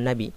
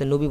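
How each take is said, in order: First: The first vowel sounds like 'a', as 'nabi'. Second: The first vowel sounds like 'o', as 'nobi'. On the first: This is the original Arabic form. The speaker calls it right. "সঠিক উচ্চারণ নাবি" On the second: This is the everyday Bengali form. The speaker calls it wrong. "আমরা বাংলাতে নবী বলে থাকি"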